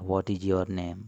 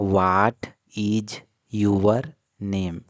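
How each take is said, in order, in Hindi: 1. 'your' शब्द एक शब्दांश में बोला जाता है। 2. 'your' शब्द दो शब्दांश में बोला जाता है। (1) "इसको हम योर पढ़ते हैं, न कि यूवर पढ़ते हैं" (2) "हम गलत प्रोनाउंसिएट करते हैं। हम बोलते हैं व्हाट इज यूवर नेम, जो कि बिल्कुल गलत है"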